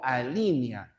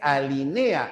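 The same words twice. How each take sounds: First: The stress is on the second syllable. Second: The stress is on the third syllable. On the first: The speaker calls it wrong. "no se tildan nunca en la I" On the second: The speaker calls it right. "Ya se dice alinea"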